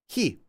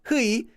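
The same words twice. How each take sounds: First: The vowel is a plain 'ee' sound. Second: The vowel is a gliding 'ui' sound. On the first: The speaker calls it right. "Say it like this" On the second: The speaker calls it wrong. "You could say he, but no one does"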